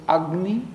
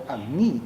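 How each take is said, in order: First: "Agni" with the accent on its first syllable, AG-ni; stress on first syllable. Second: "Agni" with the accent on its final syllable, ag-NI; stress on last syllable. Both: Shown as a demonstration. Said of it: "how do you pronounce the word".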